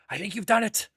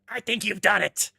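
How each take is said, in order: First: It is said in a less harsh voice. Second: It is said in a horrible, harsh voice.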